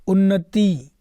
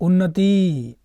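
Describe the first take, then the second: No difference in how they are said.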